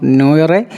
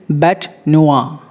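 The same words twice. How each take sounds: First: NOIRE said as "no-ray"; wrong pronunciation. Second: NOIRE said "noo-ah" after a slow "bat"; corrected pronunciation. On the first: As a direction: sound the R in NOIRE, "no-reh". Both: Shown as a demonstration. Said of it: "It's not noire".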